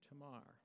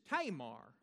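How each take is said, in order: First: The stress is on the last syllable. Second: The stress is on the first syllable. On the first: The speaker calls it right. "Put that emphasis on that last syllable" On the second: The speaker calls it wrong. "if you're from West Texas, it's Tamar"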